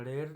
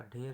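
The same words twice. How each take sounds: First: ढेर starting with unaspirated ड; wrong pronunciation. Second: ढेर starting with breathy aspirated ढ; correct pronunciation. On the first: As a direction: say ढेर as "der", no puff. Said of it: "नहीं होगा". (ढेर में ढ की जगह ड बोलें) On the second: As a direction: say ढेर as "dher", with a puff. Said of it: "होगा". (ढेर में महाप्राण ढ बोलें) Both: Shown as a demonstration.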